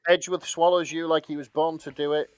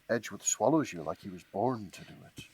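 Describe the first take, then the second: First: It is read in a plain, flat voice. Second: It is read in a sultry advert voice.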